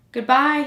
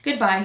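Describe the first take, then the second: First: GOODBYE said higher and louder; a raised, more insistent "Goodbye"; repeated goodbye. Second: Said in the usual way. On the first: A narrator's reading. Prince tries the unanswering flower once more, insistent goodbye. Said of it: "he repeated". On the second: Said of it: "he said to the flower".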